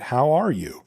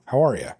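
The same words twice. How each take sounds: First: "How are you?" with clear spaces between words; careful full form. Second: "How are ya?" run together into one blurred word. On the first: A speaker showing the textbook greeting, careful. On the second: A speaker showing American slang, run together. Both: Shown as a demonstration. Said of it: "no discernible spaces".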